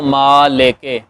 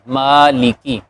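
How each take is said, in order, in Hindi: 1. l और k के बाद के स्वर 'e' जैसे सुनाई देते हैं। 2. l और k के बाद के स्वर 'ee' जैसे सुनाई देते हैं। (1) "ऐसे नहीं पढ़ेंगे" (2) "ज़ेर आ रही है तो ई की आवाज़ आएगी"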